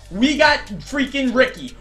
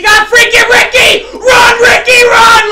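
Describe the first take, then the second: First: Said in the usual way. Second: High, loud cheering a runner on; real excited yell at the screen; hyped shout. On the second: Real, not acted. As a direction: scream him down the field. Big run by his player.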